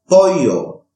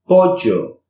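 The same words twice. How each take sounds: First: The ll is a soft, y-like sound. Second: The ll is a harsh, g-like sound.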